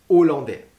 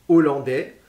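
No difference in how they are said.

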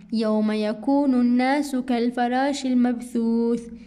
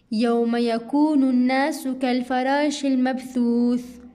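No difference in how they are said.

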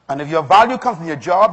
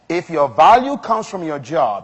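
First: It is said at normal speed. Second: It is said very slowly.

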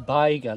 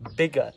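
First: The first vowel is long, as in tiger. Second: The first vowel is short, as in big. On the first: The speaker calls it wrong. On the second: The speaker calls it right.

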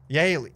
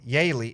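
First: The name is said as one syllable. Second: The name is said as two syllables. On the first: "Is it Yale or Yaley?" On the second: "Is it Yale or Yaley?"

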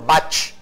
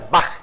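First: The word ends in a ch sound. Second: The word ends in a throaty kh sound. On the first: The speaker calls it wrong. "y no Bach" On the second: The speaker calls it right. "se pronuncia Bach"

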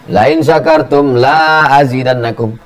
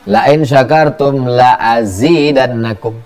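First: The second la has a long vowel. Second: The second la has a short vowel. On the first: Thanks will not bring more. The speaker calls it wrong. "kamu tidak akan kutambah. Nauzubillah" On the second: Thanks will surely bring more. The speaker calls it right. "sungguh pasti akan kutambah"

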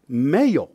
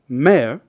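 First: A y glide splits the vowel into two syllables. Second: The vowel stays together without a glide break. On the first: "which is pronounced mayor" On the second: "Another example is mayor"

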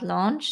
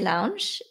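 First: The word is said with an English-style vowel. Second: The word is said with a German-style vowel. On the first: The speaker calls it right. "and not launch" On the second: The speaker calls it wrong. "in German you say launch"

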